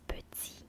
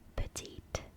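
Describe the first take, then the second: First: The final T sound is silent. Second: The final T sound is pronounced. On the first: The speaker calls it right. "You don't pronounce the T, the, the last T, because it's silent" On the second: The speaker calls it wrong. "you don't pronounce it petite"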